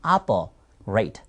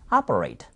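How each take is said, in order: First: 아퍼레이트 slowly split as 아퍼, then 레이트, lower; improved pronunciation. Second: 아퍼레이트 run together in one low, falling word; improved pronunciation, joined. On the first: Teacher modelling operate for learners, slow split pronunciation. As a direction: break 아퍼레이트 in two, slow and low. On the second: Teacher modelling operate for learners, joined-up pronunciation. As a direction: join 아퍼레이트 smoothly, pitched low. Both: Shown as a demonstration. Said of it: "조금 향상된 발음을 하고 싶다".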